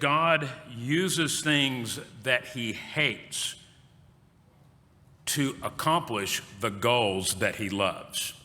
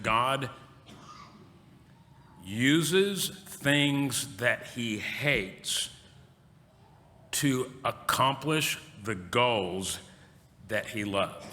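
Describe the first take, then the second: First: It is spoken at a normal pace. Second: It is spoken very slowly.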